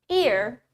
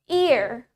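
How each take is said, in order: No difference in how they are said.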